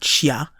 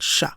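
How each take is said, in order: First: It is split into two separate sounds. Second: It is merged into one single sound. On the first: The speaker calls it wrong. "Not shia in this case" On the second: The speaker calls it right. "but sha"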